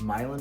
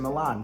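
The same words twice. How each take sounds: First: It is pronounced the local, non-Italian way. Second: It is pronounced like the Italian city. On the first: This is how others say the road name. "everyone always says I say it wrong. It's Milan Road" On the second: This is the speaker's own preferred way. "Milan is in Italy, and that sounds better. So I'm going to say Milan"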